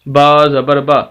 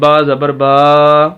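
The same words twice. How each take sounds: First: The final vowel is short. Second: The final vowel is drawn out long. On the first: The letter carries a plain zabar. The speaker calls it right. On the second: The letter would carry a standing zabar instead. The speaker calls it wrong.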